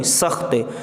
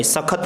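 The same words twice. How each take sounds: First: सख्त, आधे ख के साथ, ख्त जुड़ा हुआ; सख्त को दो हिस्सों में, स-ख्त; सही उच्चारण. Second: सख्त को सखत बोलकर, ख पर पूरा स्वर; सख्त में ख और त के बीच अ डालकर; गलत उच्चारण. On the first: (सख्त में ख के बाद कोई स्वर नहीं) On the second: (सख्त तीन हिस्सों में, स-ख-त) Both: Shown as a demonstration. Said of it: "सख्त नहीं".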